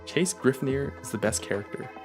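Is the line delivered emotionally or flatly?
flatly. The line is said plainly, without much emotion.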